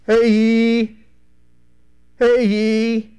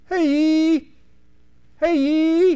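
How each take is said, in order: First: It is called in a deeper baritone voice. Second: It is called in a high voice.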